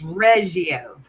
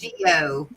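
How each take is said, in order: First: The name is pronounced in a French way. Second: The name is pronounced in a non-French way. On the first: This is how the family name is really said. The speaker calls it right. "It's Reggio. It's French" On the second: This is how most people say the name. The speaker calls it wrong. "Everybody says Reggio, but it's not"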